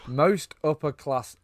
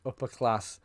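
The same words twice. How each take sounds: First: Most stretched slow and raised; drawn-out emphasis. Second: Said in the usual way. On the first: Retold or imitated. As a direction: lean hard into most, slowly. Mocking Colin Firth's poshness.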